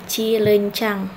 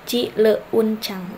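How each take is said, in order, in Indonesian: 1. 'Eu' diucapkan sebagai satu vokal tunggal. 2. 'E' dan 'u' diucapkan sebagai dua vokal yang terpisah. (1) "monoftong E U tidak dipenggal" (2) "kita tidak memenggal misal cileuncang. Nah, tidak seperti itu ya"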